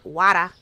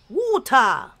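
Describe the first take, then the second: First: Water is said with an American accent. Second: Water is said with a British accent. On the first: "Instead of the forever wada" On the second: "that's how she pronounces water. I sometimes pronounce it like that"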